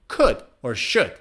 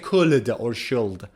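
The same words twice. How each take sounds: First: The L sound is silent in both words. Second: The L sound is pronounced in both words. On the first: The speaker calls it right. "It's also silent in could and should" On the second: The speaker calls it wrong. "So we don't say could or should"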